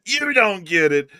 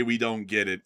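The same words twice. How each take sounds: First: "You" punched louder and higher, slow; stress on YOU. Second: Mocking quote. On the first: Real, not acted. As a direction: hit "You" hard, then "don't get it" slowly. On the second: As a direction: sneer out the critic's line. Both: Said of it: "someone's about to come in here and say".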